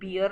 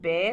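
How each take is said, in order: First: The vowel sounds like the one in 'beer'. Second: The vowel sounds like the one in 'bare'. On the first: The speaker calls it wrong. "बियर नहीं होता है" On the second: The speaker calls it right. "bear होता है"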